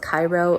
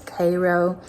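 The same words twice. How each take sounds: First: It is said the commonly expected way. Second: It is said the local Illinois way. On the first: "You would expect this town to be pronounced Cairo" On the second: "and it's Cairo"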